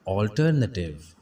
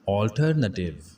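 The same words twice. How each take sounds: First: The first vowel is a rounded 'aw' sound. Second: The first vowel is a rounded 'aw' sound.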